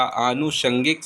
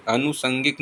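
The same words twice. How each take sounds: First: आनुषंगिक with long aa and sh; correct sounds. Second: अनुसंगिक with short first a and plain s; wrong sounds. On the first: Teacher confirming the right word, आनुषंगिक with aa and sh. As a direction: open on "aa" and use sh in आनुषंगिक. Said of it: "सही शब्द है". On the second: Teacher showing the mistake, अनुसंगिक with s, not sh. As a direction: say "anu-sangik" for अनुसंगिक. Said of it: "अनुसंगिक नहीं होता". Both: Shown as a demonstration.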